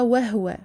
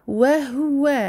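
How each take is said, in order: First: The middle u vowel is weakened. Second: The middle u vowel is clearly pronounced. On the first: The speaker calls it wrong. "et non pas" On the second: The speaker calls it right. "bien prononcer la dhamma en plein milieu ici et amincir toutes ces lettres"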